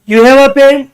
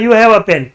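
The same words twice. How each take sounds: First: It has the tone of a question. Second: It has the tone of a statement.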